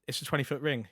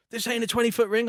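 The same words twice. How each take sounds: First: Said in the usual way. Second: Louder, higher mock complaint; higher, louder annoyed protest; imitating Jake. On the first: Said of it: "I was like". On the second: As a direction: do an indignant Jake protesting the ring. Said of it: "he's like".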